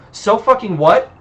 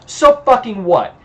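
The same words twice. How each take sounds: First: High echoed question, rising at the end; incredulous echo. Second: High-pitched retort, falling at the end; defiant retort. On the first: Hunter repeats the vampire's retort back at him, incredulous. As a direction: throw the words back as a question. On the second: Vampire answers the hunter's accusation, defiant. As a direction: throw it back defiantly, ending on a fall. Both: Acted.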